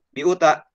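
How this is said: All syllables are said short and evenly. The reader worked it out before starting. The speaker calls it right. "kita berpikir dulu dari awal. Oh, setelah bi ada u"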